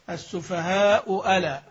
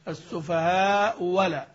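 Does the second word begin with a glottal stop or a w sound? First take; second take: glottal stop; w sound. First: The second word begins with a glottal stop. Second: The second word begins with a w sound. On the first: "الأولى مضمومة والثانية مفتوحة" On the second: "أبدل الثانية واوا خالصة"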